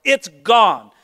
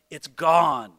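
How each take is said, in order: First: "It's gone" punched loud and firm; emphatic finality. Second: "It's gone" low and settled, falling on gone; quiet finality. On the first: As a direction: slam the door on "It's gone". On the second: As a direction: let "It's gone" sink down softly. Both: Shown as a demonstration.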